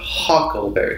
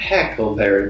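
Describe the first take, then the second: First: The first syllable has an 'uh' vowel. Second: The first syllable has an 'eh' vowel. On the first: The speaker calls it right. "It's a U. Uck" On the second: The speaker calls it wrong. "Not not Heckleberry"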